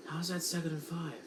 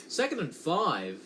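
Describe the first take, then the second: First: Quick, soft, disbelieving aside; can't believe the scorecard; a puzzled half-mutter to himself; incredulous question. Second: Said in the usual way. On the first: Real, not acted.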